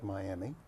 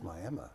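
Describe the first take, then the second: First: It uses the usual, non-Oklahoma pronunciation. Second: It uses the local Oklahoma pronunciation. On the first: The speaker calls it wrong. "it's not Miami" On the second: The speaker calls it right. "in Oklahoma, it's Miami"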